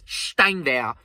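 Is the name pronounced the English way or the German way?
German. The name is said with a German pronunciation. The speaker calls it right. "it's Steinwehr"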